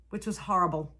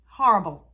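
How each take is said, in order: First: Said in the usual way. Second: Horrible pushed out much louder, with anguish; loud emphatic repeat. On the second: Real, not acted. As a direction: throw the word horrible out hard and loud.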